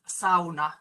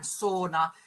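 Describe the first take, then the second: First: The word has a Finnish pronunciation. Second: The word has an English pronunciation. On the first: The speaker calls it right. "really it should be pronounced sauna" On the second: The speaker calls it wrong. "which most, even most Finnish people say when they start speaking English"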